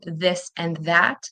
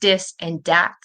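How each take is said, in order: First: The words begin with a TH sound. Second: The words begin with a D sound. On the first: The speaker calls it right. "instead of this and that" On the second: The speaker calls it wrong. "they're saying dis and dat"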